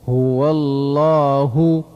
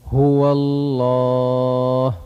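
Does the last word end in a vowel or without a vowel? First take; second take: vowel; without vowel. First: The last word ends with a short u vowel. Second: The last word ends without a final vowel. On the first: Reading continues past this word. "ها ضمه" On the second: Reading stops at this word. "وفي حال الوقف"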